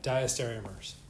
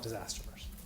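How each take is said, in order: First: Every syllable of the word is said fully. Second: The middle syllables are dropped and run together. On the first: The speaker calls it right. "Good pronunciation" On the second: The speaker calls it wrong. "Most people call it disastomers"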